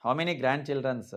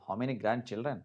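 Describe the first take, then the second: First: Slow wrong example. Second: Said in the usual way. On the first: Shown as a demonstration. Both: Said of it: "తప్పు".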